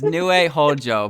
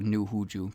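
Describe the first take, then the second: First: The surname sounds like 'Hojo'. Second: The surname sounds like 'Huju'. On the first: This is the proper name. The speaker calls it right. "It's Nue Hojo" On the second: This is a joking habitual nickname. The speaker calls it wrong. "I just call her New Huju because um well I'm very funny"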